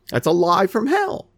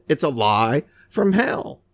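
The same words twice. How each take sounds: First: Said in the usual way. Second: It's a lie from hell, drawn out slowly, hell stressed; slow, weighty repeat. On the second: Shown as a demonstration. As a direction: say it a second time, slower and heavier. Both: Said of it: "I say it again".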